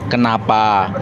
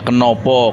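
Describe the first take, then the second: First: Both vowels after 'ken' are open 'a' sounds. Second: Both vowels after 'ken' are 'o' sounds. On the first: "kenapa bahasa apa bahasa Melayu" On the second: "kenopo itu bahasa Jawa"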